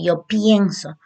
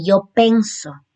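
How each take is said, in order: First: "pienso" said with the ie diphthong, as the correct model; "yo pienso" with a clear ie, shown as right; correct form. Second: "penso" said with a plain e, as a wrong example; "yo penso" said as the mistake not to make; wrong form. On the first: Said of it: "se dice". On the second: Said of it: "no se dice". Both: Shown as a demonstration.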